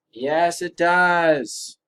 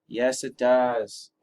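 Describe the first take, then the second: First: Slow emphatic. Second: Said in the usual way. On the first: Acted. Answer confirmed, drawn out.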